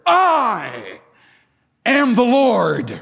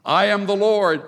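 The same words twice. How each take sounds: First: High, loud, slow I... am the Lord; stress on am, slow. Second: Said in the usual way. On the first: Shown as a demonstration. Preacher repeating God's words for emphasis, slow and loud. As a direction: proclaim it, stretching am. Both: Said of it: "He repeats it".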